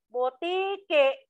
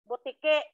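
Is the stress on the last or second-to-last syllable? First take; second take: second-to-last; last. First: The stress is on the second-to-last syllable. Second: The stress is on the last syllable. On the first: The speaker calls it wrong. "oh, malumi" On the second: The speaker calls it right. "binigkas mo ng tuloy-tuloy"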